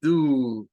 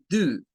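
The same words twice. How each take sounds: First: Do, the noun reading. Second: Do, the verb reading. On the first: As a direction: do as the noun, lower and louder. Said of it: "nombre que se puede pronunciar como". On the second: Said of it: "verbo pronunciado como do". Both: Shown as a demonstration.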